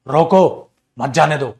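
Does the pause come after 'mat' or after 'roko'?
after roko. There is a pause right after 'roko'. The person is stopped. "रोको के बाद coma लगाओ"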